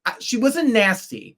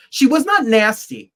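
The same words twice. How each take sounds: First: Said in the usual way. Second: Not punched, louder; stress on not. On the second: Real, not acted. Insisting to co-hosts she was not nasty, stress on not. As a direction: lean hard on the word not. Correcting herself on [name]'s manner.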